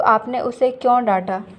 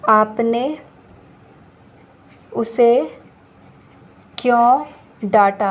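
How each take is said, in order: First: Said in the usual way. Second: Each word slow and separate, a little louder; teacher dictating to the class word by word; slow dictation. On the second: Shown as a demonstration. Teacher reads the sentence slowly for students to write. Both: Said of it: "अगर मैं बोलूँ".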